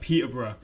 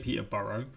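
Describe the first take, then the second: First: The ending 'borough' is short and reduced. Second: The ending 'borough' is said fully, like written. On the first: This is the British way of saying it. The speaker calls it right. "We're like Peterborough" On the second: This is the American way of saying it. The speaker calls it wrong. "we don't say Peterborough"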